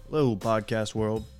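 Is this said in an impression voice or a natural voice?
natural. It is said in the speaker's ordinary voice. The speaker calls it wrong.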